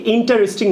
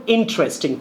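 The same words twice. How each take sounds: First: "ইন্টারেস্টিং" with a full "ta", in-ta-res-ting; wrong pronunciation shown. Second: "ইন্টারেস্টিং" as in-tres-ting; correct pronunciation. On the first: Teacher quotes what not to say, in-TA-res-ting. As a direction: say ইন্টারেস্টিং in four beats. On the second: Teacher gives the replacement, said in-TRES-ting. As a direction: squeeze ইন্টারেস্টিং into three beats. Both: Shown as a demonstration. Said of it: "না বলে বলবো".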